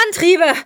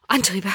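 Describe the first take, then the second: First: High, sudden cry; alarmed shout. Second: Restrained first alarm. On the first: Vitali cries out for the thrusters, alarmed shout. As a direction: shout the order, pitch leaping up. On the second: Vitali first grasps they need thrusters, restrained alarm. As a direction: start the alarm under the breath, before the shout. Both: A narrator's reading. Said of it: "schrie Vitali auf".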